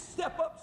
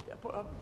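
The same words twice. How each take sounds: First: A hint of a loving father's high call; lightly voiced father, pressing gently; Father's urging. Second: A touch softer, drawn back; softer repeat. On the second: Acted. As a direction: ease off on the second ask. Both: Father urges Son to cross.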